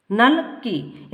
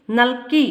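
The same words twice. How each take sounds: First: नल, clear pause, then की; juncture in नल की. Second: Said in the usual way. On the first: Shown as a demonstration. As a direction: slowly split नल की into two separate words. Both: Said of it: "आक्षरिक संगम भी होता है".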